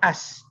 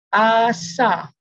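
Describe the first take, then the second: First: The word ends cleanly on the s sound. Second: The word ends with an added vowel sound. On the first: The speaker calls it right. "Bunyinya as" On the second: The speaker calls it wrong. "cucunda yang kata asa"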